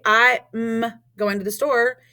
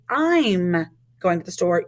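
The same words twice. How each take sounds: First: "I'm" broken into "I" and a separate "m"; contraction pulled apart. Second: "I'm" run together as one word; joined contraction. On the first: Teacher showing students what not to say, "I'm" split apart. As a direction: say "I'm" in two pieces, slowly. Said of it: "we don't say them apart". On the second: Teacher showing students how it is said, "I'm" joined up. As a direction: say "I'm" smoothly as a single syllable. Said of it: "You say". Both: Shown as a demonstration.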